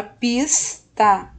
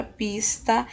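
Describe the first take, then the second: First: PISTA split as PIS... TA; two separate beats on PISTA; syllable by syllable. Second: Said in the usual way. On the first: Shown as a demonstration. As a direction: hold the S in PISTA, pause, then TA. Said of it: "A primeira sílaba". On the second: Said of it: "Palavra pista também".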